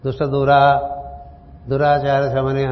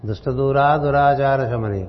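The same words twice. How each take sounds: First: There is a pause after dura. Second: It is said in one breath, without pausing.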